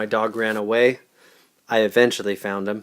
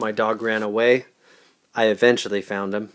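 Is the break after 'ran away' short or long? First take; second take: long; long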